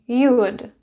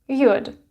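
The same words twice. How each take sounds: No difference in how they are said.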